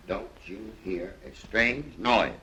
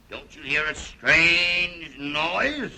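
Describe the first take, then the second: First: Slow, word-by-word delivery at normal pitch; measured cue line. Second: Very slow, raised, stretched-out question; theatrical rehearsal. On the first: Shown as a demonstration. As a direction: lay out the cue slowly, without raising the voice. Explaining the line to be rehearsed. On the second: Pretend. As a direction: draw every word out dramatically as a stage cue. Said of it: "we'd better rehearse that again".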